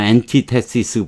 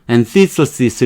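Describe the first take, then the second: First: It uses the common Korean-style pronunciation. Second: It uses the standard English pronunciation. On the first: "우리 뭐 antithesis 보통 그러죠" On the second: "이렇게 발음하는데"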